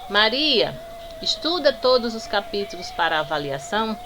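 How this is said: There is a pause right after the name. Maria is being called and given an order. "Além de eu ter feito uma pausa"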